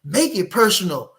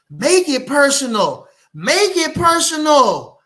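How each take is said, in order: First: Said in the usual way. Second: Slower, louder and higher each time; rising shout. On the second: Acted. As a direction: build it into a shout. Building chant of the phrase.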